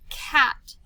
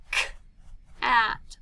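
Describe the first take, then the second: First: Said in the usual way. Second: "K-at" split as k, pause, at; "K-at" sounded out with a gap after the k; said slowly, segmented. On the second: Shown as a demonstration. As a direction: separate the first sound in "K-at". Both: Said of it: "Let's say it slowly".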